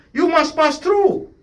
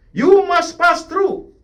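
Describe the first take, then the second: First: High, slow, drawn-out insistence; urgent slow high exhortation; emphatic. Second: High, slow, louder with "You" punched; emphatic louder repeat. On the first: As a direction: press each word slowly on the congregation. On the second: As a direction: drive it home louder, word by word. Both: Shown as a demonstration. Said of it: "pastor repeats for emphasis".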